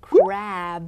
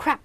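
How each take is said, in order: First: CRAB slow, long vowel, voiced B ending. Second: CRAB said short, ending in a crisp P; quick P ending. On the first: Teacher showing the seafood word, long drawn-out CRAB. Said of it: "ออกเสียงยาวๆหน่อยก็ได้". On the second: Teacher demonstrating crap with P, short and quick. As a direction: cut CRAB off fast with a P. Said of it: "ที่เป็นตัว P ออกเสียงเร็วๆ". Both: Shown as a demonstration.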